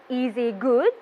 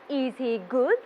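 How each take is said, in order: No difference in how they are said.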